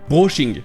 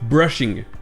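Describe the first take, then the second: First: The first vowel is French, like in brosser. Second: The first vowel is English, as in brush. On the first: "avec O au lieu du E en anglais ... ça sonne comme brosser" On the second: "au lieu de brushing"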